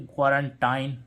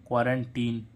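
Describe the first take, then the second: First: क्वारंटाइन with a long "ai" in the last syllable, as the spelling suggests; expected spelling pronunciation. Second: क्वारंटीन with a long "ee" in the last syllable; correct pronunciation. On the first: Teacher gives the expected but wrong reading, then the long "ai". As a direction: say क्वारंटाइन ending in "-tine" like "fine". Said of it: "वैसे इसका क्या होना चाहिए था". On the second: Teacher gives the real spoken form, then the long "ee". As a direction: say क्वारंटीन ending in "-teen". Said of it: "लेकिन क्या आ रहा है इसमें". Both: Shown as a demonstration.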